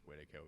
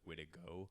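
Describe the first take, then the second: First: The last consonant is a hard K sound. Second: The last consonant is a softer G sound. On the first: The speaker calls it wrong. "we just have kind of just hard K'd it" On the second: The speaker calls it right. "a more accurate way to pronounce Witico would be like Witigo"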